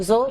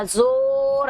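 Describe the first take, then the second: First: Said in the usual way. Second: زور with the و stretched long; drawn-out vowel. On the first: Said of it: "آرام سے". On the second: Shown as a demonstration. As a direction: drag out the vowel of زور, the wrong way. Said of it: "ایسے نہیں پڑھا جا رہا ہے". (زور کو کھینچ کر)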